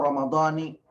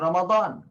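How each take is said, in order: First: The word ends with an 'i' vowel. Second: The word ends with no final vowel. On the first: "ada yang mengatakan" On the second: "kita tidak memberi harokat"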